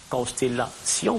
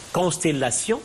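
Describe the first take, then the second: First: "Constellation" drawn out slowly, ending split into si-on; diaeresis. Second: Said in the usual way. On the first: Shown as a demonstration. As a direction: stretch the "-tion" of "Constellation" into two syllables. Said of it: "C'est une diérèse". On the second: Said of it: "c'est un découpage en deux syllabes".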